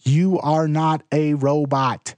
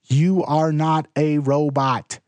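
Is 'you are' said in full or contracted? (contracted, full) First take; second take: full; full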